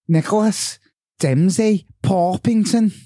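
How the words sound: It is said in a Scouse accent.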